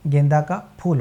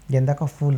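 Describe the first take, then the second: First: The last word begins with an aspirated p. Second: The last word begins with an f sound. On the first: It refers to a flower. The speaker calls it right. "गेंदा का फूल होता है" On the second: It would mean a fool. The speaker calls it wrong. "गेंदा का फूल नहीं होता है"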